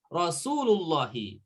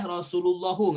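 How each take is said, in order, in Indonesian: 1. Kata ini berakhir dengan vokal 'i'. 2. Kata ini berakhir dengan vokal 'u'. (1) "Harus Rasulullahi" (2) "nggak boleh Rasulullahu"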